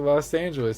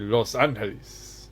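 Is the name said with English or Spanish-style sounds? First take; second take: English; Spanish. First: The name is said with English-style sounds. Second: The name is said with Spanish-style sounds. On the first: This is how most local people say it. "Most people say" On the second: Hardly anyone local says it this way. "They don't say"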